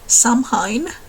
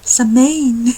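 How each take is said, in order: First: It is pronounced in a Finnish way. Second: It is pronounced in a Gaelic way. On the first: The speaker calls it wrong. "I had said it wrong all these years. Like the Finnish pronunciation" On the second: The speaker calls it right. "the Gaelic pronunciation, pronunciation is"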